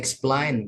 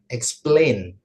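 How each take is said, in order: First: The second syllable lacks the 'ay' vowel. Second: The second syllable has the 'ay' vowel. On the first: The speaker calls it wrong. "bukan explain" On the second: The speaker calls it right. "Jadi pakai A gitu ya"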